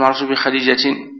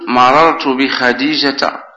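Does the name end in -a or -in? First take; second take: -in; -a. First: The name ends in -in with an n sound. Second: The name ends in a short a vowel. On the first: The speaker calls it wrong. "ولا تقول" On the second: The speaker calls it right. "وتقول"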